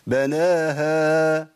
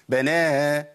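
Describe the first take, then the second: First: The final h sound is thick and heavy. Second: The final h sound is dropped entirely. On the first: "كده فخمنا الهاء" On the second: "الهاء اختفت خالص"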